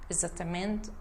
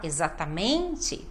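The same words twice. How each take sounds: First: No syllable is given clear emphasis. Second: The stressed syllable is clearly emphasized. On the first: The speaker calls it wrong. "e não dá ênfase" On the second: The speaker calls it right. "a gente tem que falar exatamente"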